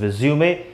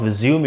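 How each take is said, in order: First: The word ends on an 'ay' vowel. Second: The word ends on an 'm' sound. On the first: The speaker calls it right. "It is रिज्यूमे" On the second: The speaker calls it wrong. "It is not रिज्यूम"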